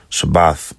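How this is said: The word ends with a th sound. "instead of the da or the th"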